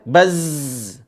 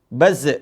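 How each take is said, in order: First: The final z sound is sustained and flowing. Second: The final z sound is cut short. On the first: The speaker calls it right. "dialirin suaranya" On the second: The speaker calls it wrong.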